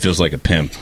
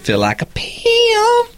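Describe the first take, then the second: First: It is said in a normal, serious voice. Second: It is said in a high-pitched, joking voice. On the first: It is meant seriously and is offensive. The speaker calls it wrong. "Then it's offensive" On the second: It is meant as a joke. The speaker calls it right. "as long as I do my voice high like that, it's humorous"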